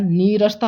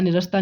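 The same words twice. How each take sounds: First: नीरसता with a long ई, nee-ras-ta; नीरसता said correctly; correct pronunciation. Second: निरसता with a short इ, ni-ras-ta; निरसता the common mistake; wrong pronunciation. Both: Shown as a demonstration. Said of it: "निरसता नहीं".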